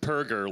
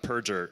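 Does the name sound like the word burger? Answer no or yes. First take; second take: yes; no. First: The name sounds like burger. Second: The name does not sound like burger. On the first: The speaker calls it right. "it's Perger, like burger" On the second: The speaker calls it wrong. "His name's not Perger"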